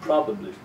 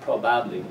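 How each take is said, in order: First: The second syllable has a weak, reduced vowel. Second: The second syllable has a full vowel. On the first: The speaker calls it right. "the ba of the second syllable becomes weak" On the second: The speaker calls it wrong. "not probably"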